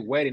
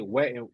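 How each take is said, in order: First: It is said in a plain, neutral accent. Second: It is said in a New York accent. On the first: "they don't say wedding" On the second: "they say wetting, ... That's how they say wedding. Women in uh in New York"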